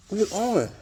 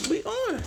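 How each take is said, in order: First: Said in the usual way. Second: Excited. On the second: Real, not acted. Belt finally on, celebrating.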